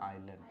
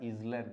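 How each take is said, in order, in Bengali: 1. l-এর আগে কোনো z শব্দ শোনা যায় না। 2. l-এর আগে z শব্দ শোনা যায়। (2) "এটার উচ্চারণটা ইজল্যান্ড নয়"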